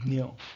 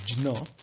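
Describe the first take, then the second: First: The letter is pronounced with a dny sound. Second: The letter is pronounced with a jn sound. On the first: "The last letter in the list of alphabets is Dnya" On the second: "in Sanskrit, it is pronounced as"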